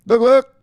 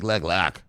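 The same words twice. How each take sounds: First: High, loud "Look, look."; quoting the whales with a high, loud "Look, look."; hype catchphrase. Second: Said in the usual way. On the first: Retold or imitated. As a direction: pitch up the "Look, look." loudly. Whales' quote, hype take.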